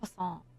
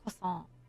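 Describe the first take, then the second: First: It is said with a French accent. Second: It is said with a French accent.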